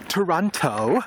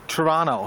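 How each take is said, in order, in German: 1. Es wird mit einem britischen Akzent ausgesprochen. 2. Es wird mit einem kanadischen Akzent ausgesprochen. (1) "ich fliege mit British Airways und die fliegen natürlich nicht nach Toronto, sondern nach Toronto" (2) "auf Kanadisch Toronto"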